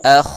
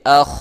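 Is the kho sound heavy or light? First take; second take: heavy; heavy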